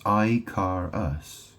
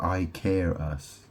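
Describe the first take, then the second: First: "car" said like the vehicle, in "I car us"; pronunciation variant. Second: "care" rhyming with air, in "I care us"; pronunciation variant. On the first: Weighing how to say Icarus, "car" with an AR vowel. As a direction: slowly sound out "I car us" with an AR vowel. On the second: Weighing how to say Icarus, "care" rhyming with air. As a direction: slowly sound out "I care us" with an AIR vowel. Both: Shown as a demonstration. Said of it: "which one is it?".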